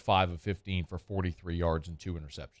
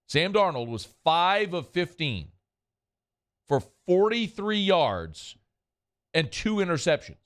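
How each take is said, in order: First: It is said at a normal speed. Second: It is said slowly and deliberately.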